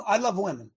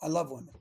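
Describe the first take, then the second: First: Said in the usual way. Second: Softer repeat. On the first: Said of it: "I, I love". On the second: Real, not acted.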